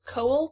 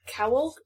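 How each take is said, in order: First: "Cowell" said with a long O, rising; first syllable like "co". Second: "Cowell" said with an OW as in cow, rising; first syllable like "cow". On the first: Host trying another surname reading, "Cowell" with a long O. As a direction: ask "Cowell?" starting like "coal". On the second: Host unsure of the author's surname, "Cowell" with a cow sound. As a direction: ask "Cowell?" rhyming the start with "now". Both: Shown as a demonstration. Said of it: "I think it's Cowell".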